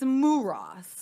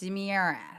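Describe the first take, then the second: First: The first syllable sounds like 'moo'. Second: The first syllable sounds like 'mih'. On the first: The speaker calls it right. "it's it's Muras" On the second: The speaker calls it wrong. "to everyone else. It's Miras"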